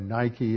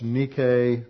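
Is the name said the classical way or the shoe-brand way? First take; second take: shoe-brand; classical. First: The name is said the shoe-brand way. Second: The name is said the classical way. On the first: It names the shoe brand. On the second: It names the ancient goddess.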